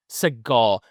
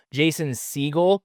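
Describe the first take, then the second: First: Segel said as suh-GAWL, stress on the second syllable; mispronounced Segel. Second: Segel said SEE-gul, stress on the first syllable; corrected Segel. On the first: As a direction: Segel with a schwa first and a long gol ending. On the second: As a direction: Segel with a long ee first and a short gul ending. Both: Shown as a demonstration.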